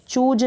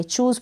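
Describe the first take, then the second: First: चूज said "chooj", ending in j; wrong j sound. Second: चूज़ said "chooz", ending in z; correct z sound. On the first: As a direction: close चूज on j, not z. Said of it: "चूज ना पढ़े". (चूज के अंत में ज की ध्वनि) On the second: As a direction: close चूज़ on a buzzing z. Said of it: "चूज़ पढ़ेंगे". (चूज़ के अंत में ज़ की ध्वनि) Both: Shown as a demonstration.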